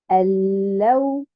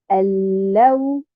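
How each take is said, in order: First: The stress falls on the second syllable. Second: The stress falls on the second syllable.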